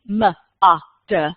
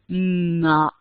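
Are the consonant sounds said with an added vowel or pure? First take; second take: added vowel; pure. First: The consonant sounds carry an extra vowel. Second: The consonant sounds are clipped with no extra vowel. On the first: The speaker calls it wrong. "it doesn't really sound like the word mud" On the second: The speaker calls it right. "if you can say the sounds very purely"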